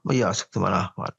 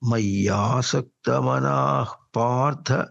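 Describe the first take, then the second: First: The syllables are rushed together quickly. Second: Each syllable is said slowly and held. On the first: The speaker calls it wrong. "మనం మయ్యాసక్త మనా Partha అనేస్తాం" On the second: The speaker calls it right. "ఒక్కొక్క అక్షరాన్ని పట్టి పట్టి అట్ట పలికితేనే వస్తుంది సరిగా"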